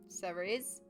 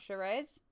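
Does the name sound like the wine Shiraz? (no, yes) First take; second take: no; yes. First: It is pronounced unlike the wine Shiraz. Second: It is pronounced like the wine Shiraz. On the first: The speaker calls it right. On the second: The speaker calls it wrong.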